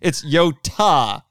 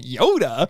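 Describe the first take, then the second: First: The middle consonant is a crisp t sound. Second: The middle consonant is a soft d sound. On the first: The speaker calls it right. "Ta, ta, ta, not duh" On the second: The speaker calls it wrong. "everyone pronounces it Yoda in the dub"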